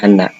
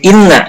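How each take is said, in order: First: The word begins with an 'a' vowel. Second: The word begins with an 'i' vowel. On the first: The speaker calls it wrong. "bukan anna" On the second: The speaker calls it right. "dibacanya kasroh ya"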